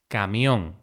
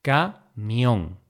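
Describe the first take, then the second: First: Said in the usual way. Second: Camión split into ca, mión; syllable by syllable. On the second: Shown as a demonstration. Teacher dividing camión for learners, syllable by syllable. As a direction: say "camión" with a pause after ca.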